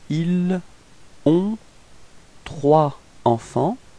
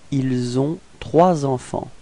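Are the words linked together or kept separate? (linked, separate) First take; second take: separate; linked. First: The words are kept separate without linking consonants. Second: Final consonants link into the following vowel-initial words. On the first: "let's pronounce it like if we didn't make the liaison first" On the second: "if we make the liaison"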